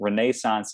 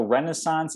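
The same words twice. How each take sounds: First: It is said with the British pronunciation. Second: It is said with the North American pronunciation. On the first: "is British pronunciation" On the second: "is North American pronunciation"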